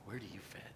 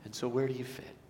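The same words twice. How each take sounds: First: Much softer, lower echo of the question; soft repeat. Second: Said in the usual way. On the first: Shown as a demonstration. Pastor gently repeating the question to the congregation, hushed. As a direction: let the question sink in quietly.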